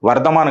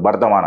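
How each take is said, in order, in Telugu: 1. ఈ పేరు v శబ్దంతో మొదలవుతుంది. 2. ఈ పేరు b శబ్దంతో మొదలవుతుంది. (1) "వర్ధమాన్ కాదు" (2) "బెంగాల్లో బా అంటారు"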